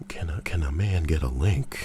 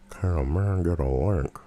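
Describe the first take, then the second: First: Said in the usual way. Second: MAN and LINK bent toward "murn" and "larnk"; playfully garbled vowels. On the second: Pretend. Repeats request with distorted vowels.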